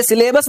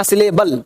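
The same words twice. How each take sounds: First: "सिलेबस" ending in an S sound; wrong final S. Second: "सिलेबल" ending in an L sound; correct final L. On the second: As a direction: say "सिलेबल" with final -bal, falling. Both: Shown as a demonstration. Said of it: "इसे सिलेबस नहीं कहना".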